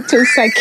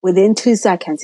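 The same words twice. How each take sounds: First: "Two seconds" repeated higher and louder, rising; stress on Two seconds. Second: Said in the usual way. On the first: Retold or imitated. Telling her friend how fast the test showed, stressed "Two seconds". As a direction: punch "Two seconds" in disbelief.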